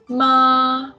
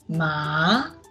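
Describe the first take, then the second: First: The pitch stays level and high. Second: The pitch rises from middle to high. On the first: "Ma is a flat tone" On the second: "Second tone is a rising tone"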